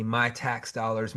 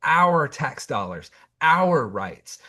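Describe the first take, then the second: First: "my" leaned on in a slow, mocking "my tax dollars"; sneering "my tax dollars", slowed down; stress on my. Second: "our" punched in "our tax dollars, our rights", slow and firm; emphatic, slowed "our tax dollars" against the selfish "my"; stress on our. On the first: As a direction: drag out "my tax dollars" to mock his selfishness. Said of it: "I hear you, hear you saying". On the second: Real, not acted. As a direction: hit "our" hard to answer his "my". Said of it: "I'm talking about our rights".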